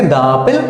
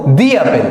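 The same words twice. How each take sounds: First: "দা" with an open a before "অ্যাপেল"; wrong "da" for "the". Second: "দি" with an ee vowel before "অ্যাপেল"; "the" as "dee". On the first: Teacher showing the reading to avoid, "দা" said as "da". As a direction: say "দা" as "da" instead of "dee". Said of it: "না এটাকে দা অ্যাপেল পড়বো না". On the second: Teacher giving the right reading, "দি" said as "dee". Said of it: "এটাকে কিন্তু আমরা পড়বো". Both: Shown as a demonstration.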